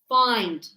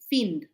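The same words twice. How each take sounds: First: The vowel is a long 'eye' sound. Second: The vowel is a short 'i' sound. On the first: The speaker calls it right. "why I? There is no E on the end" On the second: The speaker calls it wrong. "People say find. No"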